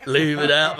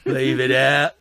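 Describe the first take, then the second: First: Put-on Cockney accent. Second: Lightly Cockney, half laughing; Cockney phrase tossed off; Cockney accent. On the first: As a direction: leave it out, laughing, stronger Cockney. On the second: Pretend. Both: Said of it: "Do your Cockney accent again".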